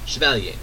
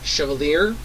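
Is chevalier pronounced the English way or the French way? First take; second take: French; English. First: The word is pronounced the French way. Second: The word is pronounced the anglicized, English way. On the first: It is the high, formal form of the language. "more francophone in pronunciation" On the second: It is the common, low form of the language. "the low, common Avalonic pronunciation"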